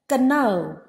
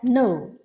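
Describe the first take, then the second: First: The word begins with a pronounced k sound. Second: The word begins without any k sound. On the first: The speaker calls it wrong. "We don't pronounce it as kano" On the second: The speaker calls it right. "We pronounce it as no"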